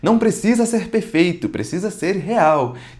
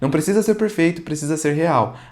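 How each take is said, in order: First: It is said in a put-on salesy announcer voice. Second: It is said in a plain, natural speaking voice. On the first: The speaker sounds like someone they are not. The speaker calls it wrong. "Então eu trazia essa outra entonação que não é legal" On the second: The speaker sounds like their real self. The speaker calls it right. "Então eu não li assim"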